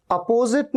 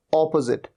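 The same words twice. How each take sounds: First: अपोजिट as "uh-PO-zit", higher pitched; wrong opposite. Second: अपोजिट as "AW-puh-zit", lower; correct opposite. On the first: Teacher showing the mistake "uh-PO-zit". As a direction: open अपोजिट with uh, long po. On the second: Teacher correcting it to "AW-puh-zit". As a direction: stress the opening o in अपोजिट. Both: Shown as a demonstration. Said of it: "अपोजिट नहीं".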